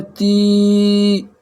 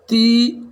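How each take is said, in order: First: ती stretched slow, held about four seconds; long drawn vowel. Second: ती clipped short and higher; short vowel. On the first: Teacher shows students the long ती, drawn out slowly. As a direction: pull the ती out long and steady. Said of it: "आवाज़ खींचती चली जाएगी". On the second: Teacher contrasts short and long ती for students, quick and short. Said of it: "इसमें कम आवाज़ में बोलना है". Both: Shown as a demonstration.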